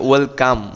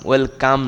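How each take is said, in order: Both takes have the same delivery.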